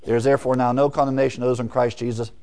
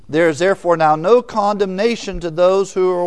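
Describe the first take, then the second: First: A fast, plain reading ending on Jesus; quick plain reading. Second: Preacher booming the verse; emphatic scripture reading. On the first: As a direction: rattle off the verse fast, matter-of-fact. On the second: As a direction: read it out louder and higher, weighting no. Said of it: "Look at the New American Standard". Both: Shown as a demonstration.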